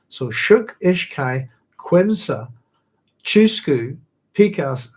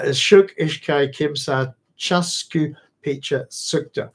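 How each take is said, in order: First: "Shuk, Ishkai, Quimsa, Chusku, Pikas" each word stressed and spoken distinctly; "Quimsa" with a kw and "Chusku" with a ch and a u, the true Ecuadorian Quechua forms; real Quechua numbers. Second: "Shuk, Ishkai, Kimsa, Chasku, Picha, Sukta" read carefully as Frank's altered Quechua; Dune counting words. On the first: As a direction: count one to five in real Quechua, one word at a time. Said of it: "are the real words one to six". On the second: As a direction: say "Kimsa" with a K and "Picha" with a ch, as the book spells them. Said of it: "this is how Muad'Dib counts".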